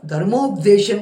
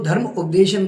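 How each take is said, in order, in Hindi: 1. शब्द एक जुड़े हुए शब्द की तरह बोला गया है। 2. शब्द दो अलग-अलग हिस्सों में बोला गया है।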